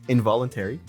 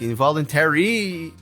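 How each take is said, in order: First: The word has its standard pronunciation. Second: The word has an imitated nonstandard pronunciation. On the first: The speaker calls it right. "The actual pronunciation is involuntary" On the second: The speaker calls it wrong. "the way he says like involuntary, but that's not how you should say it"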